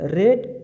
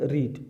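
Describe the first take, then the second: First: The vowel is short, like 'red'. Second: The vowel is long, like 'reed'. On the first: The verb is in its second form. "তারপরে রেড" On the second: The verb is in its third form. "তারপরে রিড"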